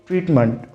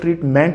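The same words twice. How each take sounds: First: The last syllable has a weak, reduced 'mənt' vowel. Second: The last syllable has a full, stressed 'ment' vowel. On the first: The speaker calls it right. "the right pronunciation" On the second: The speaker calls it wrong. "बहुत से लोग ट्रीटमेंट बोलते हैं, जबकि मेंट pronunciation गलत है"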